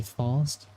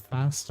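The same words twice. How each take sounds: First: "fast" with a long open ah; British fast. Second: "fast" with a flat short a as in cat; American fast. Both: Shown as a demonstration. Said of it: "instead of fast, I'd say fast".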